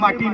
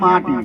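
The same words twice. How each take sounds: First: The word is said plainly and casually. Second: The word is said slowly with deep feeling. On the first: The speaker calls it wrong. "ସେ ମାଟି ନୁହେଁ" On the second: The speaker calls it right. "ହୃଦୟ ଭିତରୁ ଗଭୀରତାର ସହିତ"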